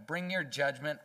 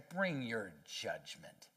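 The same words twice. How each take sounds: First: Said in the usual way. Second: Lower, slow and softer, a dark dare; defiant taunt. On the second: Retold or imitated. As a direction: dare God slowly under the breath. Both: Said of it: "so defiant toward God that they say".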